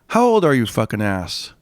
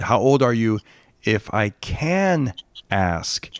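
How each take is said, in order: First: The words are run together quickly. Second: The words are said separately and clearly.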